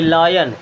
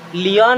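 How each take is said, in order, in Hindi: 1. पहला स्वर 'eye' जैसा बोला जाता है। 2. पहला स्वर 'ee' जैसा बोला जाता है। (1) "आई की तरह" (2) "लियन नहीं पढ़ेंगे"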